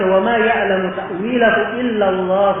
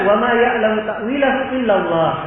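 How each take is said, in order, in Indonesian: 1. Bacaannya terus melewati Allah tanpa berhenti. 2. Bacaannya berhenti tepat setelah Allah. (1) "Ada yang membaca wa ma ya'lamu ta'wilahu illa Allah war-rasikhuna fil 'ilm. Ada yang berhenti di situ" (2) "sampai di situ dia berhenti"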